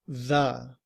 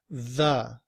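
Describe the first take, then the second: First: The vowel is a weak schwa. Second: The vowel is a weak schwa.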